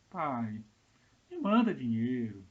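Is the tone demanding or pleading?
pleading. It sounds soft and pleading.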